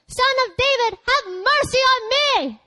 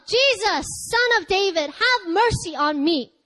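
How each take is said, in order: First: Much higher, slow, desperate plea; crying out all the more. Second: A first plea, only slightly raised and slowed; crying out for mercy. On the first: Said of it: "But he cried out all the more". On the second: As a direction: call out to Jesus, holding back a little. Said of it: "a blind man who he cries out". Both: A narrator's reading.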